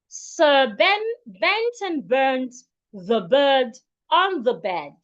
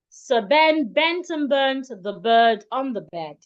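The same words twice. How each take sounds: First: The sentence is said at a slow pace. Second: The sentence is said at a medium pace.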